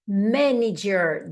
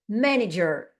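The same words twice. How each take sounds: First: "Manager" said very slowly, every syllable spelled out; slow manager demo. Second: Said in the usual way. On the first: Shown as a demonstration. Teacher slows "Manager" down for students, syllable by syllable. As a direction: break "Manager" apart slowly so students hear each sound. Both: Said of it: "Olha, essa palavra aqui".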